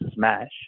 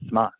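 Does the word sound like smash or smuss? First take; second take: smash; smuss. First: The word is said with a standard 'a' vowel. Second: The word is said with a 'u' vowel and 's' ending. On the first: "instead of saying smash" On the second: "they say smuss... just by their accent"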